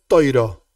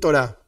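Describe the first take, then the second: First: It is said with an Ashkenazi pronunciation. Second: It is said with a Sephardic pronunciation.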